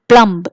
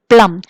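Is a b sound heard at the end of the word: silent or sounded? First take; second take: sounded; silent. First: A b sound is heard at the end. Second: The final b is silent. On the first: The speaker calls it wrong. "it is not plumb. It is a wrong pronunciation" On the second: The speaker calls it right. "We say plum"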